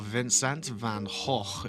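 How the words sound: The name is said with Dutch sounds.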